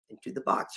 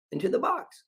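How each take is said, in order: First: Secretive whisper punchline. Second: Into the box, voice jumping high; high lilting reveal; high rising punchline. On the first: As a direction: whisper into the box. Same punchline repeated. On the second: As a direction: toss it up high and bright like a reveal. Punchline of savings routine. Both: Shown as a demonstration.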